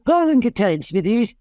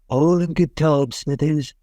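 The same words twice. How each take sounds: First: The put-on voice is pitched higher. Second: The put-on voice is pitched lower. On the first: "Pitch that up a little bit" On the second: "So you have Montgomery Burns go"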